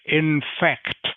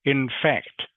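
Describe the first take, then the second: First: The k sound before the final t is pronounced. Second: The same.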